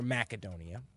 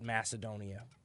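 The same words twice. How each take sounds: First: The c is a hard k sound. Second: The c is a soft s sound. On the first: This is the proper local form. "the proper pronunciation is with a hard C" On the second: This is the usual Western form. "we in the West have come to call it"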